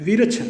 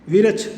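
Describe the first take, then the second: Both takes have the same delivery.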